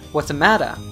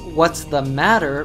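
First: The word 'the' is reduced to a weak 'a'. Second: The word 'the' is said fully and clearly. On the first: "when pronounced in a natural way in English" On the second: "the sentence, "what's the matter,""

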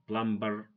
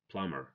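First: The B is pronounced. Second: The B is silent. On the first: The speaker calls it wrong. "So don't say" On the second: The speaker calls it right.

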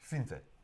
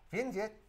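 First: It is said with a Russian accent. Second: It is said with an Indian accent. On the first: "How do they say it in Russia?" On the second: "How do they say it in India?"

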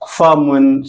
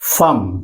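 First: The word ends with an added 'un' sound. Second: The word stops on a bare consonant. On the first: This is the form as written. The speaker calls it wrong. "എഴുത്തിൽ ഇങ്ങനെ ഉണ്ടാവും" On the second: This is the form used when speaking. The speaker calls it right. "നമ്മൾ ഉച്ചരിക്കേണ്ടത് ... ഈ രീതിയിലാണ്"

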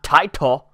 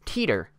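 First: The first vowel is not an 'ee' sound. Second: The first vowel is an 'ee' sound. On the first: The speaker calls it wrong. "not Titor" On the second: The speaker calls it right. "It's Teeter"

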